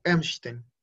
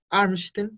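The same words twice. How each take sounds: First: EMSTEN with A-umlaut sounded as E, drawn out slowly; pronunciación con umlaut. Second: ARMSTEN con A abierta, sin umlaut; pronunciación sin umlaut. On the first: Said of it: "cambia el O por O umlaut". ("Emsten" lento, con la A umlaut como E) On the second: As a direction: say "Armsten" with a plain open A. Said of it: "Y ya no es". ("Armsten" con la A sin cambiar) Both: Shown as a demonstration.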